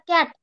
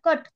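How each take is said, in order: First: The vowel is an open 'a' sound. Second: The vowel is a short 'uh' sound. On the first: The speaker calls it right. "ह्याला आपल्याला कॅट असंच वाचायचंय" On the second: The speaker calls it wrong. "आपण जर म्हणलं कट, कट करा असं जर म्हणलं तर हे चुकीचं होतं"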